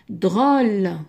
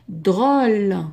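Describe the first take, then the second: No difference in how they are said.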